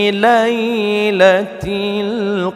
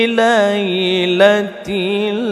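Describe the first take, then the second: The two takes are said the same way.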